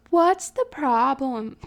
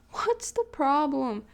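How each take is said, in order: First: Slow mock-annoyed yell; playfully grumpy, drawn out; fake annoyed. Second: Slow mock-annoyed retort; a lighter grumpy repeat; fake annoyed. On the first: Sister yelling back from the other room, mock-annoyed. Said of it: "in, like, a fake annoyed tone". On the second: Sister answering from the room, mock-annoyed. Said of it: "a fake annoyed tone".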